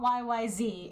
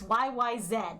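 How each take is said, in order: First: The last letter is said the American way. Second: The last letter is said the Canadian way. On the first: The speaker calls it wrong. "It's not" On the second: The speaker calls it right.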